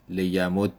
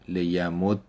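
First: لیمد said "liyamudda", doubled d then a; لیمد with final fatha, "li-ya-mud-da"; Arabic ending with fatha. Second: لیمد said "liyamuddi", doubled d then i; لیمد with final kasra, "li-ya-mud-di"; Arabic ending with kasra. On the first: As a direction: end لیمد on a clear open a. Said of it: "اگه فتحه بدیم". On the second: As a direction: end لیمد on a short i. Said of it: "و اگر کسره بدیم". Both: Shown as a demonstration.

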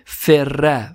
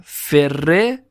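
First: "فره" ending in a short "a"; fatha ending. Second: "فره" ending in a short "e"; kasra ending. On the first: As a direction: say "فره" as ferra, doubled r. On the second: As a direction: say "فره" as ferre, doubled r. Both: Shown as a demonstration. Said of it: "فتحه یا کسره باشه".

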